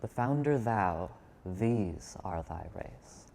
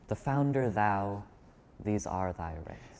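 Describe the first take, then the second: First: Thou and these are given strong stress. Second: Thou and these carry no special stress.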